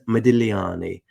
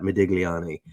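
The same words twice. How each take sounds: First: The G sound in the name is silent. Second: The G sound in the name is pronounced. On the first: This is the way the name really goes. The speaker calls it right. "I know that the G is silent" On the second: This is the easier, Americanized way to say it. The speaker calls it wrong. "Americanized to say it like that"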